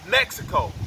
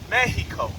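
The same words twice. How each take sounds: First: The x sound in the middle is heard. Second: The x sound in the middle is silent. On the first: It is the name most people use. The speaker calls it wrong. "what the world calls Mexico" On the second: It is the true original name. The speaker calls it right. "you really pronounce it as Mexico because the X is silent"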